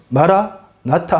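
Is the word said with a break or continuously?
break. The word is split with a break inside. The Lord has already come. "끊어서 읽으면"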